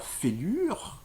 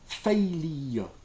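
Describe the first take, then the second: First: It ends with a rolled French-style R. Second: It has a y-glide and no French R. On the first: The speaker calls it wrong. "prononcé à la française ... en roulant le R à la fin" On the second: The speaker calls it right. "c'est comme si on rajoutait un Y"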